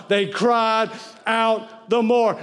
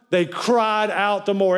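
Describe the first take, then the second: First: Cried out. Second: Said in the usual way. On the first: Shown as a demonstration. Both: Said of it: "shout that with me".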